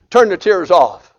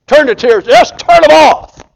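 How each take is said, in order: First: Said in the usual way. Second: Building shout. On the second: Acted. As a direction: repeat "Turn the tears, just turn them off" much louder and higher, slowing on "turn them off". Preacher repeats command louder.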